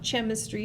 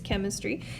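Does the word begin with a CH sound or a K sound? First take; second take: CH sound; K sound. First: The word begins with a soft CH sound. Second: The word begins with a hard K sound. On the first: The speaker calls it wrong. "it's not chemistry" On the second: The speaker calls it right. "it's chemistry. So you say it with a hard C"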